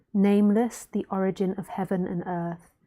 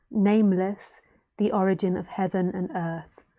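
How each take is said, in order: The two takes are said the same way.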